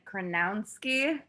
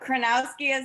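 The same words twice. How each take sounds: First: The name has an added extra N sound. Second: The name has no added extra N sound. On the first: The speaker calls it wrong. "people like to add another N in there and say like Kronowski" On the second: The speaker calls it right. "Kronowski is correct"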